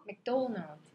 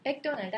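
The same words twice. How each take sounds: First: "맥도날드" English-style, stressed on 도; mek-DO-nald, punch the 도 in "맥도날드". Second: "맥도날드" stressed on first syllable 맥. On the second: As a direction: say "맥도날드" Korean-style, leaning on 맥. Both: Shown as a demonstration. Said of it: "맥에다 강세 줬잖아요".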